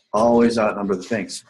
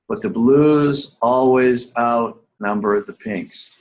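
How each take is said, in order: First: Said in the usual way. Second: "blues" stressed, every word slow and spaced; slow emphatic rule. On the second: Shown as a demonstration. Teacher repeating the key rule to students, slow and emphatic. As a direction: hammer the rule home slowly.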